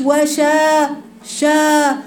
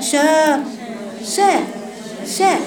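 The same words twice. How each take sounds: First: وشا with a heavy, rounded شا; wrong heavy sha. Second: شا light and open, a little higher; correct light sha. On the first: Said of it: "ليست شا يا بنات". (شا مفخّمة خطأ) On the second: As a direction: give the proper open شا. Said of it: "وسطًا، شا". (شا مرققة صحيحة) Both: Shown as a demonstration.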